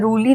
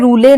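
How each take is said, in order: First: The word ends with an extra 'ee' vowel. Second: The word ends with an extra 'e' vowel. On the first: "रूली नहीं पढ़ेंगे" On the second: "हम इसे रूले नहीं पढ़ेंगे"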